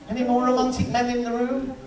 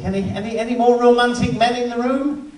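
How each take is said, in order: First: Said in the usual way. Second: Louder call out to the crowd; comic calling loudly to the audience. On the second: Real, not acted. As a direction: throw the question out to the room.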